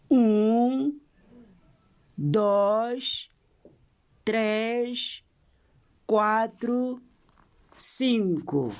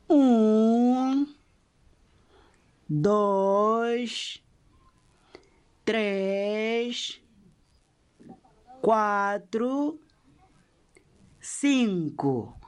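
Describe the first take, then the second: First: The counting is at a fast pace. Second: The counting is at a slow pace.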